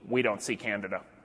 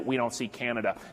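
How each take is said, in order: First: The last word keeps its middle d sound. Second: The last word drops its middle d sound. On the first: The speaker calls it right. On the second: The speaker calls it wrong.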